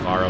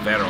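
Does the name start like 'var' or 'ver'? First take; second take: var; ver. First: The name begins with a 'var' sound. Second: The name begins with a 'ver' sound. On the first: The speaker calls it wrong. "I don't know why I keep saying Varro. It's not name" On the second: The speaker calls it right. "It's Vero"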